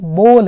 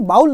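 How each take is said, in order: First: The vowel sounds like 'oh' in go. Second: The vowel sounds like 'ow' in cow. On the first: The speaker calls it right. "बोल है" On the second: The speaker calls it wrong. "इसको बाउल मत बोलना"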